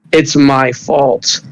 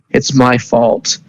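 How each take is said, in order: First: Slow, weary echo of the guilt; grief-stricken repeat. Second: Slow, broken confession of guilt; grief-stricken. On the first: Maruki repeating his guilt to his fiancée, slow and sorrowful. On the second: Maruki blaming himself at his fiancée's bedside, slow and grieving. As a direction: drag it out like he's about to cry. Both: Acted. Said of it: "he starts crying".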